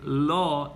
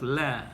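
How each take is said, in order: First: The l is heavy with a deep, rounded vowel. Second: The l is light with a thin, bright vowel. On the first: A fatha or dhamma comes before the name. "it will become tafkhim, and the pronunciation would be law" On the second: A kasra comes before the name. "instead of la"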